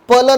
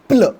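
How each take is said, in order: First: A full vowel separates the p and l. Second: The p and l blend with no vowel. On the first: The speaker calls it wrong. "पल नाही" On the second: The speaker calls it right.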